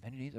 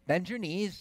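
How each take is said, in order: First: Put-on the father gently echoing the kids; quiet parent repeat. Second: Put-on children urging a baby to jump; cheering siblings. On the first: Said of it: "So I said". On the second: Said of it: "And they say".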